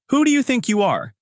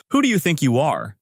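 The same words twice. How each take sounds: First: High-pitched indignant challenge; angry outburst. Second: Understated outburst from an irate manager; mild angry challenge. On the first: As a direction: berate them as an irate manager, pitch jumping up. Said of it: "Manager Park continues". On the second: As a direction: challenge them with a touch of anger. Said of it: "Manager Park yells from his office". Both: A narrator's reading.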